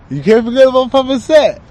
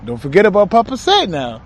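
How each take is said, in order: First: High, loud, strange channeled spirit voice; channeled Papa Said voice. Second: Said in the usual way. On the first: Pretend. Channeler lets Papa Said speak through him, high and loud. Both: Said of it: "when I speak like that".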